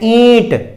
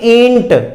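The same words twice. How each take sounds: First: The vowel is nasalized with no n sound. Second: A full n sound follows the vowel. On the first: The speaker calls it right. "इसको हम सही बोलते हैं ईंट" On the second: The speaker calls it wrong. "ना कि ईंट, ईंट नहीं बोलते"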